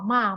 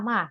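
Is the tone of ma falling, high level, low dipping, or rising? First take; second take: high level; falling. First: The syllable is said on a high level pitch. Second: The syllable is said with a sharply falling pitch. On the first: It means mother. "kalau nada satu artinya mama" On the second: It means pole. "keempat, ma artinya kutub"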